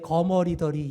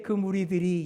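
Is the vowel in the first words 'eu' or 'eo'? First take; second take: eo; eu. First: The first syllable uses the 'eo' vowel. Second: The first syllable uses the 'eu' vowel. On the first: The speaker calls it wrong. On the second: The speaker calls it right.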